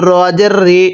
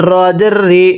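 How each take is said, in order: Both takes have the same delivery.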